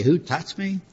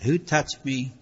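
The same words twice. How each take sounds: First: Rising, disbelieving question; the apostles doubting Jesus amid the crowd, incredulous. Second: Settled, sincere question; Jesus asking about the touch of faith, sincere; earnest, deeper meaning. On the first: Retold or imitated. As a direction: ask it baffled, as if the crowd makes it absurd. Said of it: "Even the apostles said". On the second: Shown as a demonstration. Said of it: "But he meant something deeper than that".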